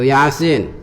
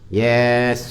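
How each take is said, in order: First: Each letter is said separately by its name. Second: The letters are blended into one short word. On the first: The speaker calls it right. "Atau Yasin" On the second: The speaker calls it wrong.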